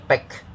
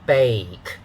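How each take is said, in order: First: The vowel is short like the one in egg. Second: The vowel glides like the one in day. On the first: The speaker calls it wrong. "So don't say bake" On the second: The speaker calls it right. "make sure you have the A sound"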